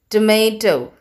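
It is said in an American English accent. "In American English, we say tomato"

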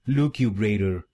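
It is said in an American accent.

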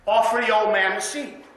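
It is said in a quiet, gentle voice.

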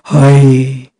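It is said in a deep voice.

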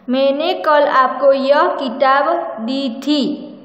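The word किताब is stressed.

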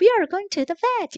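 It is said in a bright, cheerful voice. It tries to keep the dog from getting scared. The speaker calls it wrong. "강아지가 겁먹을까 봐 oh, ... 이렇게 하는 게 아니라"

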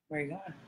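It sounds suspicious and doubting.

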